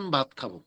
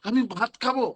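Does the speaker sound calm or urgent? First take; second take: calm; urgent. First: It is said in a calm, casual way. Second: It is said in an urgent, demanding way. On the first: The food can be served later. "শোনার পরে মনে করো ও ভাত খাবে, আচ্ছা ঠিক আছে দিব আধা ঘন্টা পরে।" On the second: The food must be served right now. "তার মানে তোমার চাহিদা এত বেশি যে তোমাকে এখনই খাবার দিতে হবে।"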